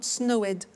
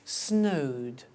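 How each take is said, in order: First: The ending is said as an extra syllable. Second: The ending is a plain D sound. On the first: The speaker calls it wrong. "not snowed" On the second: The speaker calls it right.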